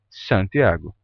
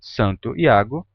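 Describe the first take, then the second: First: Said quickly, merged into one word. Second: Two separate words with the vowels kept apart.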